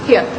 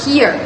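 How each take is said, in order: First: "here" with the final R left off; British RP "here", ending in a schwa without R; dropped R. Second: "here" with the final R fully sounded; American-style "here", R pronounced at the end; rhotic R. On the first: Student contrasting with RP, "here" with the R dropped. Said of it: "the R is often dropped". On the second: Student showing rhoticity, "here" with a full final R. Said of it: "the R sounds at the end is fully articulated". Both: Shown as a demonstration.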